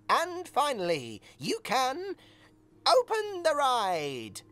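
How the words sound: It is said in an enthusiastic, lively tone.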